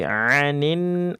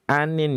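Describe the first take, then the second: First: The first vowel carries a throaty ain sound. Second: The first vowel is a plain, clear vowel. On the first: The speaker calls it right. "tapi anin, a-nya coba diulang" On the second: The speaker calls it wrong. "bukan anin"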